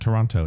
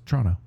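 First: It is said the standard, non-local way. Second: It is said the way locals say it. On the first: The speaker calls it wrong. "It's not Toronto" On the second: The speaker calls it right. "most locals call it Toronto"

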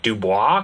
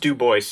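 First: The name is said with a French pronunciation. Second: The name is said with an English pronunciation. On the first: The speaker calls it wrong. "it would maybe be like Dubois because it's French" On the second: The speaker calls it right. "is pronounced Du Bois"

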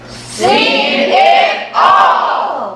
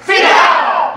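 First: It is said slowly. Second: It is said very fast.

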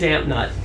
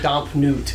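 First: The name is said plainly, like 'damp nut'. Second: The name is said grandly, like 'domp newt'. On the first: This is how ordinary people say it. The speaker calls it wrong. "that's how everyone pronounces it" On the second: This is the refined, supposedly correct way. The speaker calls it right. "they are not going to say Domp Newt"

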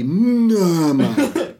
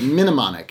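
First: The word is said without an added 'i' vowel. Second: The word is said with an added 'i' vowel. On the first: The speaker calls it right. "It'd be Mnemonic" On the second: The speaker calls it wrong. "you put an I in there. You said Mnemonic"

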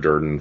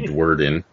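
First: The name begins with a plain 'd' sound. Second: The name begins with a 'dw' sound. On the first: The speaker calls it right. "it's pronounced like Tyler Durden from Fight Club" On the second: The speaker calls it wrong. "People always say Dwerden"

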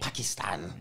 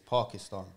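First: The name is said in an anglicized way. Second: The name is said in a native-style way. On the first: This is how the news says it. The speaker calls it wrong. "they'll say" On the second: This is how it is properly said. The speaker calls it right. "And it's Pakistan"

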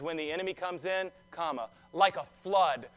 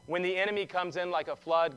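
First: There is a break after "comes in". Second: It runs on without a break after "comes in".

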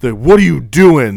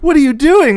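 First: The voice sounds harsh and scolding. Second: The voice sounds sweet and playful. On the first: The speaker is scolding the dog. "And the dog's all scared" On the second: The speaker sounds affectionate despite the words. "but then they'll change"

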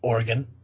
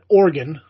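First: It does not sound like the word organ. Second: It sounds like the word organ. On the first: "I'm trying to appease those out there who, I've talked to from the West Coast" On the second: "I'm still not calling it Oregon, like, you know, like a liver"

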